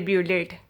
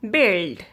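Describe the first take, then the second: First: An extra U vowel is sounded after the B. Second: No U vowel is sounded after the B. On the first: The speaker calls it wrong. "you don't ever say bullet" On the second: The speaker calls it right. "You pronounce this word is build"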